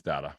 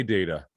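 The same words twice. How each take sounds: First: "data" said as DAT-uh; short-A data. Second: "data" said as DAY-tuh; long-A data. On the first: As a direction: give "data" the vowel of "cat". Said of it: "I say data". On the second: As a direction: give "data" the vowel of "day". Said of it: "but I think it's data". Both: Shown as a demonstration.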